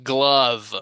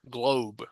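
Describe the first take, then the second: First: The word ends with a v sound. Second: The word ends with a b sound. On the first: The speaker calls it wrong. "I'm inclined to pronounce this glove as in glove. It's wrong" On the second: The speaker calls it right. "This is globe"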